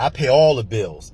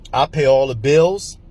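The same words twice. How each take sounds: First: "all" leaned on, falling after it; emphasis on all. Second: Said in the usual way. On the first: Retold or imitated. Repeating the mentor's boast to the listener, stress on all. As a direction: push the word "all" firmly. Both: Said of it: "He put emphasis on it".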